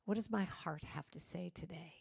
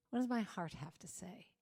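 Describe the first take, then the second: First: Gently weight "my" in "What does my heart have to say today?"; soft inner question. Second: "does" lifted, ending on a soft rise; soft inner question. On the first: Leading the audience's heart check-in, soft with "my" leaned on. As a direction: stress on "my", asked softly to yourself. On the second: Repeating the heart question to the audience, quiet with "does" lifted. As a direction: gently lean on "does" and let it rise. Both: Shown as a demonstration. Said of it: "and I want you to say".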